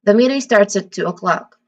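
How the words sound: The pitch falls at the end. It states confirmed, definitive information. "the following intonation in, oc- in, in o'clock"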